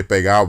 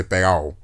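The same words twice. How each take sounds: First: Said in the usual way. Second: Pegado with the D dropped, "pegao"; Dominican dropped D. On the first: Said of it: "they don't say pegado". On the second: Shown as a demonstration. Showing how Dominicans cut their D's, pegado as "pegao". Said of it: "they cut their D's".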